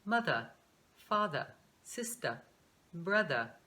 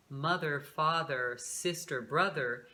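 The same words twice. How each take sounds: First: British "mother, father, sister, brother", each ending in an open uh without r; British pronunciation. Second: "mother, father, sister, brother" with the final er r-coloured, in a lowered pitch; American final r. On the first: Teacher showing how the British say these words, British r-less endings. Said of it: "eles falam". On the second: Teacher naming the words before the British version, with American final r. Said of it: "o inglês americano e o inglês britânico". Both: Shown as a demonstration.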